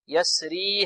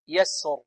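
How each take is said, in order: First: The word ends in a long 'ee' vowel. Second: The word ends without the final 'ee' vowel. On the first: The word is joined to the next word. "تثبت بمقدار حركتين" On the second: The reciter stops on this word. "أما في الوقت فإنه يحذفها"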